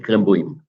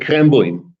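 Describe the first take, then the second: First: A glottal stop splits the ending; the stress moves. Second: The ending joins smoothly; the stress stays put. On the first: The speaker calls it wrong. "You don't say" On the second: The speaker calls it right. "no stress shift and no glottal stop"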